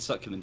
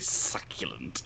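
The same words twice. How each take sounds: First: It is said in an ordinary, plain voice. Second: It is said in a hissing, snake-like voice. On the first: It sounds like a normal compliment. "It's fine" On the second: It sounds sinister and off-putting. "sound more sinister when you pretend to be a snake person"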